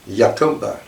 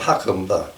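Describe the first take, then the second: First: The name begins with a Y sound. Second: The name begins with an H sound. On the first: The speaker calls it right. "the first part of that, Ya, is not Ha in Spanish" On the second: The speaker calls it wrong. "think it's Spanish and pronounce it"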